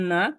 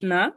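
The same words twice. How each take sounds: Both takes have the same delivery.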